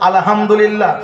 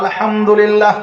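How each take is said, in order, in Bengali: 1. শব্দটিতে একটি ধ্বনি বদলে উচ্চারিত হয়েছে। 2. শব্দটি যত্ন নিয়ে, সঠিক ধ্বনিতে উচ্চারিত হয়েছে। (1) "আলহামদুলিল্লাহ সমস্ত প্রশংসা নয় আল্লাহর" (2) "আলহামদুলিল্লাহ সমস্ত প্রশংসা আল্লাহর"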